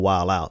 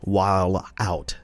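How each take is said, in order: First: The words are pronounced casually and loosely. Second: The words are pronounced carefully and precisely. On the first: "Instead of just saying" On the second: "say it properly"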